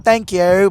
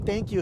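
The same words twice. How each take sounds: First: "Thank you" said in a British accent, imitated lightly; a quick light British "Thank you"; her British accent. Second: Said in the usual way. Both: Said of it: "she's saying it in her accent".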